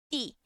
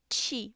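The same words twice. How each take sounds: First: Ti said as "tee", no "ch"; clean clicked ti. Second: Ti said as "chee"; wrong affricated ti. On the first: Teacher corrects to the right sound, crisp ti. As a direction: tap a pure T behind the top teeth on ti. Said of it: "vai ser". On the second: Teacher shows what to avoid, affricated ti. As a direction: put a "ch" at the start of ti. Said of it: "Não vai ser ti". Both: Shown as a demonstration.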